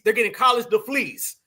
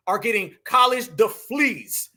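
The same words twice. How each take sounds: First: Deflees said as d-f-l-e-e-s, an f and l where degrees has a g and r; mispronounced on purpose. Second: Deflees said as d-f-l-e-e-s, an f and l where degrees has a g and r; slow, with deflees in place of degrees; mispronounced on purpose. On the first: Telling viewers it is deflees and not degrees. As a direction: deflees repeated as a mock word in place of degrees. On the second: Mocking immigrants' degrees, saying deflees slowly instead of degrees. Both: Shown as a demonstration. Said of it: "Not degrees".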